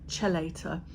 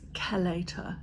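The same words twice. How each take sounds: First: The word is sounded out literally. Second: The word has its standard pronunciation. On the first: The speaker calls it wrong. "it looks like it's spelled" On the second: The speaker calls it right. "the proper way to pronounce it is"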